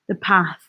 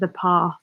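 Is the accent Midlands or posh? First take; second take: Midlands; posh. First: It is said with a Midlands accent. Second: It is said with a posh accent. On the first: "that Midlands twang does come back into it" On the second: "instead of"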